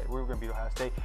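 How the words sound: It is said softly and casually.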